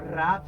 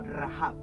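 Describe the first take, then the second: First: The word is said as one short syllable. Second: The word is said as two syllables. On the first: The speaker calls it wrong. "No rab" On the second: The speaker calls it right. "sino rahab"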